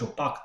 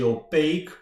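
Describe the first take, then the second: First: The word has a French-sounding pronunciation. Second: The word has a standard English pronunciation. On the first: The speaker calls it wrong. "I was pronouncing it more like French" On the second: The speaker calls it right. "but it's actually opaque"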